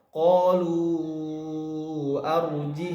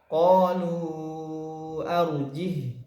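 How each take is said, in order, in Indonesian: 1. Kata itu langsung tersambung ke kata-kata berikutnya. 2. Bacaan berhenti tepat setelah kata itu. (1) "kita mau ngambil contoh yang wasol" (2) "Kemudian kita ingin wakaf"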